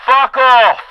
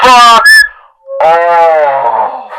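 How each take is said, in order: First: Loud, high shouted dismissal; megaphone yell. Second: Even louder yell. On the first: Comedian yelling at a fan through a pretend megaphone, loud. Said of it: "It wasn't loud enough". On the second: Comedian yelling again at a fan louder still, all-out. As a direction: bellow it so the far-off guy hears. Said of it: "I gotta do that again in case the guy didn't hear me". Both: Pretend.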